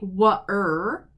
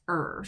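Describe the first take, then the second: First: A w sound comes before the r. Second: Only the r sound is heard. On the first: The speaker calls it wrong. "it doesn't make wa-er" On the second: The speaker calls it right. "it just makes er"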